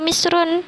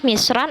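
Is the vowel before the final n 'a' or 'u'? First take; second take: u; a. First: The word ends with the vowel u plus n. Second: The word ends with the vowel a plus n. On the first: The word is the subject of the verb. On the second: The word is the object of the verb. "dibacanya fathah"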